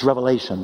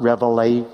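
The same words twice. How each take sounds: First: "Revelation" said with no S at the end; correct singular. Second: "Revelations" said with a final S, the form to avoid; preacher saying "Revelations" with the S on the end; wrong plural form. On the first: Preacher correcting the book's name, saying "Revelation" without S. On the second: Preacher voicing the common mistake "Revelations" with the S. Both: Shown as a demonstration. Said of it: "Cut the S off".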